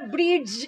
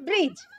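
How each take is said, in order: First: A separate d sound is heard before the end. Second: No separate d sound is heard before the end. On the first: The speaker calls it wrong. "আমরা ব্রিজ এরকম বলি না" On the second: The speaker calls it right. "আমরা বলি ব্রিজ"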